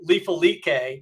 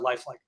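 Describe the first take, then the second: First: The name is said with a French-sounding pronunciation. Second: The name is said like the English word lifelike. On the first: The speaker calls it wrong. "some people that they pronounce our company name Lifalike" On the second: The speaker calls it right. "we're pronounced uh, lifelike"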